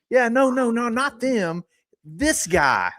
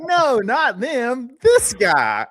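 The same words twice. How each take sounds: First: High, drawn-out put-on voice; mock insistent correction. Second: High, slow, drawn-out mock voice; mock insistent correction. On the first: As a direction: replay the silly insistence, high. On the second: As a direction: stretch it out like a silly insistence. Imitating pointing out the reporter.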